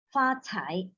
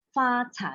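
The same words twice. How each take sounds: First: Said in the usual way. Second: 发财 with a strongly aspirated breathy C in cai; 发财 said with a big puff of air on cai; more air on CAI. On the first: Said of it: "you need to improve your 发财". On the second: Shown as a demonstration. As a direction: push out air on the C of 发财. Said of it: "more air".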